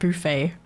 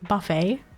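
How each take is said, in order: First: The word is said with a French pronunciation. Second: The word is said with an American pronunciation. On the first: "in French, it's like buffet" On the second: "in American English, it's pronounced buffet"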